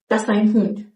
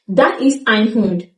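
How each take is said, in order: First: Ist shrinks to an s joined to das. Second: Ist is pronounced in full.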